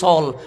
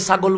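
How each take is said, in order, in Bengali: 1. শব্দটি সংক্ষেপ করে গ ছাড়া উচ্চারণ করা হয়। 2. শব্দটি গ-সহ পুরোটা উচ্চারণ করা হয়। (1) "গ ফেলে দিয়েছি, বলি সল" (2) "আমরা ছাগলকে ছাগল বলি না"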